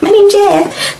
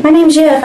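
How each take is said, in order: First: Higher, hammed-up failed accent; a clumsy mock accent, pitched way up; mock bad accent. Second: Mock bad accent. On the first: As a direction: parrot the actor's botched accent for laughs. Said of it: "that makes me crack up so hard". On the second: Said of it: "Channing Tatum didn't use accents".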